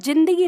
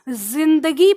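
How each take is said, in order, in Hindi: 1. पहला व्यंजन सादा है, उसमें गूँज नहीं है। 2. पहले व्यंजन में गूँज है, यह घर्षण वाली आवाज़ है। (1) "जिंदगी नहीं" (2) "नुक्ता लगा देते हैं, तो ये अब ... जिंदगी पढ़ी जाएगी"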